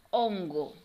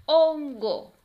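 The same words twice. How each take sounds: First: Said in the usual way. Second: Loud, high "Hon-go" in two beats; teacher segmenting "Hongo" for children; syllable by syllable. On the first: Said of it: "Ahora la palabra es". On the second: Shown as a demonstration. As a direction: punch each syllable of "Hongo" separately. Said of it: "vamos a separar cada una".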